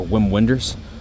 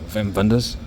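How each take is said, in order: First: The name is said with an American English pronunciation. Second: The name is said with a German pronunciation.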